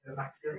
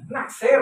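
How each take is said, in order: First: Naksir repeated softly with a slight rise. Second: Naksir called out loud and high; called-out explanation. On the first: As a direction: say Naksir quietly, almost to yourself. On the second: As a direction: call the word Naksir out to the crowd. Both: Shown as a demonstration. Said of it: "Apa ngesir, Pak?".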